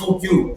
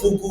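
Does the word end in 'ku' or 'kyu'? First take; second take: kyu; ku. First: The word ends with a 'kyu' sound. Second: The word ends with a plain 'ku' sound. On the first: This is the American form. "it's just the American way of saying it" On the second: This is the original Japanese form. "That's the Japanese term"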